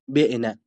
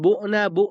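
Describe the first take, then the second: First: The first vowel is a front 'i' sound. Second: The first vowel is a rounded 'u' sound. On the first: The verb is active. The speaker calls it wrong. "حق نداری کسرش بدی و بگی بعنه" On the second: The verb is passive. The speaker calls it right. "واجب است که فاعل فعلش به ذم یا اشمام خوانده بشود"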